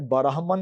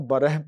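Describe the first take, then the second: First: बरहमन with an open a after र, bə-raah-man; wrong pronunciation. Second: बरह with a short e-like vowel after र, bə-rɛh; right pronunciation. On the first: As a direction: say बरहमन with a clear a in the middle. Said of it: "बरहमन नहीं पढ़ना". (बरहमन, र के बाद खुला ज़बर, ग़लत तलफ़्फ़ुज़) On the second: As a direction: say बरह with the majhool zabar, like beh. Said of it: "बरह पढ़ना है". (बरह, र पर मजहूल ज़बर, सही तलफ़्फ़ुज़) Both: Shown as a demonstration.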